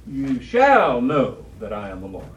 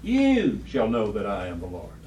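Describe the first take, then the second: First: "You shall know that I am the Lord" said slower, louder, each word pressed; emphatic slow reading. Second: Said in the usual way. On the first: Shown as a demonstration. Teacher repeating the verse to the class, slow and emphatic. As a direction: lean hard on "shall" and slow the whole line. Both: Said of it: "Just think of the emphasis".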